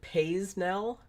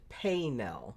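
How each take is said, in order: First: The S in the middle is pronounced. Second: The S in the middle is silent. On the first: It follows the spelling of the name. "I've heard people pronounce it Paisnell. It's because it's P A I S N E L" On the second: It treats the name as French. "I've heard like more people pronounce it Paynell"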